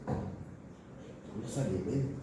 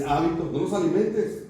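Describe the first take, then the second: First: Repeated far softer and very slowly, almost to herself. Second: Said in the usual way. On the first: Shown as a demonstration. Preacher telling the congregation not to feed sin, very slow and hushed. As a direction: let the warning sink in, drawn out and hushed.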